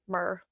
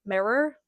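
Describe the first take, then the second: First: "mirror" squashed into one syllable, "murr"; natural accent pronunciation. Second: "mirror" in two clear syllables, rising; careful pronunciation. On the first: Saying it naturally in own accent, one-syllable "mirror". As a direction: shorten "mirror" to a quick "murr". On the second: Trying the word carefully first, two-syllable "mirror". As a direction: say both syllables of "mirror", pitched up. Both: Shown as a demonstration. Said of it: "Let me say it naturally".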